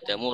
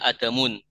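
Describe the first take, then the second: First: The word ends on a plain vowel. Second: The word ends with an added n sound. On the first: The speaker calls it right. "adamu rofa" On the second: The speaker calls it wrong. "jadi tidak dibaca adamun"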